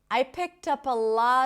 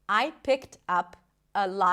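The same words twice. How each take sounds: First: The words run together with no breaks. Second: Each word is said separately with breaks. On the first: "all the words are connected" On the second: "if I did pronounce every word separately"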